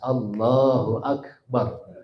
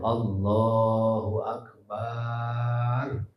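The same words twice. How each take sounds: First: The vowels are kept short and clear. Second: The vowels are stretched out very long. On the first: The speaker calls it right. "Harus jelas" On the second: The speaker calls it wrong. "Tidak boleh Allahu Akbar. Misalnya banyak dipanjangin"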